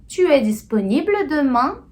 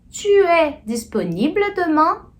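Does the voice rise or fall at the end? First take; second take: rise; rise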